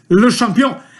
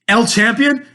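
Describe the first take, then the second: First: The first word is said as 'le'. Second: The first word is said as 'el'. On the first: The speaker calls it right. "it's Le Champion" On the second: The speaker calls it wrong. "It's not El Champion"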